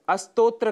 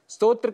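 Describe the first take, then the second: First: It begins with an extra vowel before s. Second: It begins directly with the s cluster. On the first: The speaker calls it wrong. "अस्तोत्र का हम उच्चारण कर जाते हैं, जो कि दोष माना गया है" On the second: The speaker calls it right. "स्तोत्र के स्थान पर"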